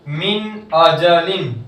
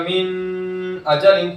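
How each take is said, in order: First: The n sound is said clearly without nasal ghunna. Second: The n sound is drawn out with nasal ghunna. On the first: The speaker calls it right. "सीधा जैसा लिखा है वैसा ही" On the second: The speaker calls it wrong. "ये गलत है"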